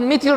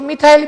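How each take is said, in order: First: मिथिल with a short i in "thil"; मिथिल, ending "thil", not "thail"; short-i pronunciation. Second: मिथाइल with a long "ai" diphthong; मिथाइल, ending rhyming with "mile"; alternative pronunciation. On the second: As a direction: say मिथाइल as mi-THILE. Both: Shown as a demonstration. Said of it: "कुछ लोग मिथाइल भी बोलते हैं".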